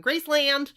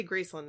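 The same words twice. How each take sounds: First: Graceland called out high and loud with a full LAND; hammed-up GRACE-LAND for Graceland; mock outsider pronunciation. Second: Graceland said GRACE-lund; adopted pronunciation. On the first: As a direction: Graceland with an exaggerated, open last syllable. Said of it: "I look weird going". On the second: Shown as a demonstration. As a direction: Graceland with a reduced "lund" ending. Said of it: "I say Graceland now".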